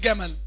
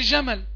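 First: It begins with a hard g stop. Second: It begins with an affricated j sound. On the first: This is the everyday local way of saying it. "عندنا في مصر بنقول جمل" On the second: This is not the everyday local way of saying it. "ما بنقولش جمل"

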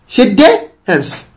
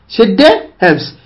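Both takes have the same delivery.

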